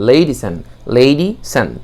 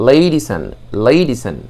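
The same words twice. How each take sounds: The two takes are said the same way.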